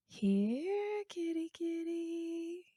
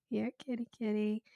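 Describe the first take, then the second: First: High, soft, slow "kitty, kitty" coo; cat-calling voice. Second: "Here, kitty" barely raised, softer coax; lighter cat call. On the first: Calling a cat over, high soft slow coax. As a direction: coax it gently up high as if a cat might bolt. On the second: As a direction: ease off into a casual repeat of the call. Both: Shown as a demonstration. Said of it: "You call a cat by going".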